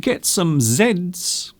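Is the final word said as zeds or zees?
zeds. The letter is pronounced zed. This is the British usage. "in British English we say Z"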